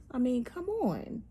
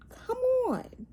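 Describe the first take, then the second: First: Said in the usual way. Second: High-pitched exasperated come on. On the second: Real, not acted. Vlogger scolding the channel, high exasperated plea. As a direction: throw it up high in disbelief.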